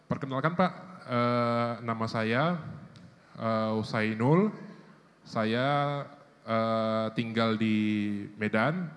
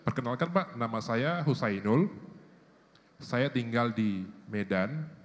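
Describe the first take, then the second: First: Hesitations are filled with 'eh' and 'uh' sounds. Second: Hesitations are short silent pauses without filler. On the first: The speaker sounds unsure and unprepared. The speaker calls it wrong. "jangan pakai eh sering-sering ... nggak enak" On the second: The speaker sounds composed and thoughtful. The speaker calls it right. "Lebih baik ... jeda aja sedikit, satu detik, dua detik nggak ada masalah"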